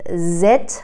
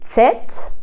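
First: The word begins with a plain z sound. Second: The word begins with a joined ts sound. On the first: The speaker calls it wrong. "زت نیست. مثل انگلیسی نباید تلفظش کرد" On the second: The speaker calls it right. "ت و س به هم دیگه چسبیده"

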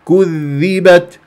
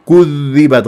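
First: The u-vowel stays short on the first sound. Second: The u-vowel of the first sound drags onto the next. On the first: The speaker calls it right. "لا الصح كذبت" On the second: The speaker calls it wrong. "كذ اقول غلط"

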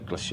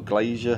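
First: It sounds like the word glacier. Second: It sounds like the word glazier. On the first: "I've always pronounced it Glacier" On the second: "It's probably Glazier"

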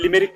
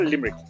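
First: The name is said in a Turkish-style pronunciation. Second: The name is said in an Irish local pronunciation. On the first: This is not how locals say it. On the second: This is how locals say it.

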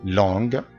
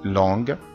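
Both takes have the same delivery.

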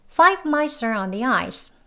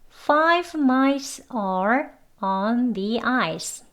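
First: Mice and are are linked, said faster. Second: Each word is said separately and clearly. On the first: "이렇게 여기만 연결해서 대해서 같이 해볼게요" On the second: "책 발음으로 3번 같이 해보겠습니다"

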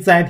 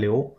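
First: The syllable is pronounced zai. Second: The syllable is pronounced liu. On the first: The speaker calls it right. "这个字儿念灾" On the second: The speaker calls it wrong. "不念硫啊"

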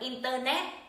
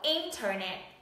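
First: The stress falls on the last syllable. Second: The stress falls on the first syllable. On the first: The speaker calls it wrong. "Từ này không đọc là Internet" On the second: The speaker calls it right. "mà nó sẽ đọc là Internet. N thành N thì nó nhận trọng âm"

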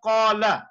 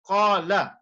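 Both takes have the same delivery.

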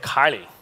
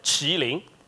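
First: The name is said with Western pronunciation. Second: The name is said with Chinese pronunciation. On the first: "the West people, we will pronounce it as" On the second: "In Chinese, we pronounce it as"

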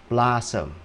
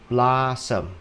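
No difference in how they are said.

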